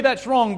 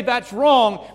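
First: Loud, high firm protest; firm rebuke. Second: Loud, high firm protest; loud rebuke. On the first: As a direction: say it out firmly. Repeated rebuke, slightly calmer. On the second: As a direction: call it out boldly. Preacher voices rebuke. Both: Shown as a demonstration.

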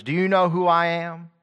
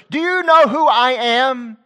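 First: Arrogant. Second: High, loud, slow indignant demand; crying aloud. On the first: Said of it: "says to others". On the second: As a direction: wail the question out, much higher and slow. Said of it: "cry aloud". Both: Retold or imitated.

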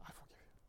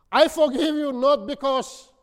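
First: A barely voiced hush; whispered forgiveness to the man who hurt her. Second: Higher and louder, ringing out; loud preacher's declaration of forgiveness. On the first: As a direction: breathe it out almost silently. Quoting her forgiveness to her tormentor. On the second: Retold or imitated. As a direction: proclaim it to the whole room. Preacher repeats the forgiveness aloud.

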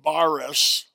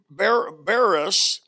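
First: Baris said the other way, a bit slower; alternate pronunciation. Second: Baris said slowly, drawn out syllable by syllable; Greek word. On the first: Pastor giving the Greek word's other pronunciation. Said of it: "or often pronounced, I think". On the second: Pastor teaching a Greek word, slowly. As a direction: sound out baris carefully. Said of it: "often pronounced". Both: Shown as a demonstration.

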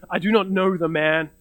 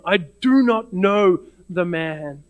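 First: Plain, direct acted denial. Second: "do not know the man" slowly, each word weighted; stronger denial. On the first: Peter answering the servant girl's accusation, direct denial. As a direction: deny it straight out, at an even pace. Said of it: "he says directly". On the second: Acted. Peter denying Jesus with an oath, slow emphatic stronger denial. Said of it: "you see Peter's denial getting stronger".

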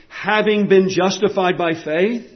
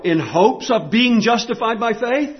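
First: "having been justified" with weight on "been"; "been" stressed, phrase left rising at "faith". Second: "hopes" picked out as the wrong wording; "in hopes of being" set out as a contrast, "hopes" weighted; stress on hopes. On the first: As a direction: lean on "been" as something already done. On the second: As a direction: lean on "hopes", lifting at the end on "faith". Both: Shown as a demonstration. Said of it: "he doesn't say".

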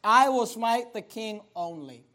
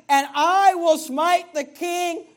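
First: Slow, controlled angry vow; restrained anger. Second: Loud, high, slow vow with "I" drawn out; angry. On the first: Preacher repeating the counselor's vow, restrained anger. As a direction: say it slowly with the anger held in. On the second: Preacher voicing the counselor's angry counsel, angry. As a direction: declare it in slow, raised anger. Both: Retold or imitated. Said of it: "Notice how angry it is".

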